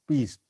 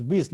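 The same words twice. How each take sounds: First: Said in the usual way. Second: "bis" for piece, Russian accent, b and short i. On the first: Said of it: "not, not bis". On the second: Shown as a demonstration. Teacher showing students Gessler's Russian "bis", lightly accented. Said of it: "used to pronounce Russian accent".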